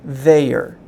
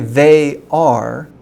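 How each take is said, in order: First: The words are joined into one short word. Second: Two full words are said, they and are. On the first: "There's a different sound going on" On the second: "it's not the same as"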